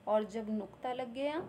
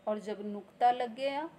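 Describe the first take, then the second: Both takes have the same delivery.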